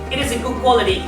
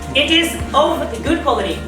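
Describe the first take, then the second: First: The word of is reduced to a weak vowel. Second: The word of is said in full.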